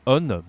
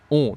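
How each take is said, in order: First: "on" ending in a clear n; wrong, n sounded. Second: "On" as a pure nasal vowel; nasal sound. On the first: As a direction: say "on" wrongly, like "onn", vowel not nasal. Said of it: "not on". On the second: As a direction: model "On" loudly without closing on n. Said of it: "in French a nasal sound". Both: Shown as a demonstration.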